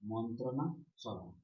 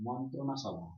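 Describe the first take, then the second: First: মন্ত্রণা সভা said slowly, in two parts; slow clear repeat. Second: Said in the usual way. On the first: Shown as a demonstration. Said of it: "কি?". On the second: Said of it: "যদি শব্দ নেওয়া যায়".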